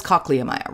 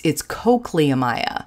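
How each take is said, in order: First: Cochleomya sounded out with a short O, COCK-lee-o-MY-a; sounded-out pronunciation. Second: Cochleomya said the way the critic insisted, long O, COKE-lee-o-MY-a; imitating a pedantic correction of cochleomya; quoting the correction. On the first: Shown as a demonstration. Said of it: "you would sound this out as". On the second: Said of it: "And he goes".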